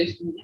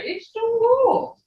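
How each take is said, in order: First: Said in the usual way. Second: "cool" stretched high and slow, falling. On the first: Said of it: "you don't just say". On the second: Shown as a demonstration. Teacher models the tone on a phrase, high and slow. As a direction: sing it high and slow with a fall. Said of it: "you gotta put that tone in there".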